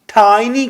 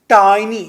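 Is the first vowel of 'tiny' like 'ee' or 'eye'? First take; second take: eye; eye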